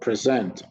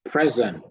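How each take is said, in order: First: The stress is on the second syllable. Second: The stress is on the first syllable. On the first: It is used as a verb. "The words on the right are all verb, and we stress the second syllable" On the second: It is used as a noun. "the words on the left are all nouns, and we stress the first syllable"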